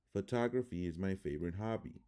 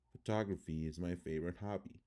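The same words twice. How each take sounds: First: Said in the usual way. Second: "Photography" with first O swallowed, ph'TOG-ruh-fee; schwa reduction. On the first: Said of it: "I'm gonna read the word". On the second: Shown as a demonstration. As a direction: squash the weak vowels in "Photography". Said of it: "how it would sound in English".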